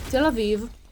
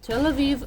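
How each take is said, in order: First: The name is said slowly and carefully. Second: The name is said at normal speed.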